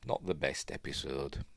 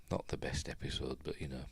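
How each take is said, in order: First: Said in the usual way. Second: "Not the best episode" in a voiceless whisper; a whispered afterthought; whispered aside. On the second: Real, not acted. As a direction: say it again under your breath. Repeats verdict, then whispers it.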